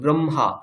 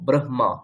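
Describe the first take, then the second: First: The m sound comes before the h sound. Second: The h sound comes before the m sound. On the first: It follows the reading some traditions use. "অনেকে ব্রহ্মা এর উচ্চারণ করতে গিয়ে আগে ম তারপর হ বলেন" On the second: It follows the written order of the letters. "আমরা আগে হ তারপর মই বলবো"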